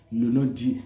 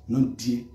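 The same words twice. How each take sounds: The two takes are said the same way.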